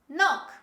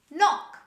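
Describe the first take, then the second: The two takes are said the same way.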